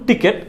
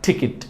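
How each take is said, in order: First: The second syllable is said as 'ket'. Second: The second syllable is said as 'kit'. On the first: The speaker calls it wrong. "প্রথমটা ছিল ভুল উচ্চারণ টিকেট" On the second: The speaker calls it right. "সঠিক উচ্চারণটা যদি আমরা করি তাহলে এটাকে আমরা বলবো টিকিট"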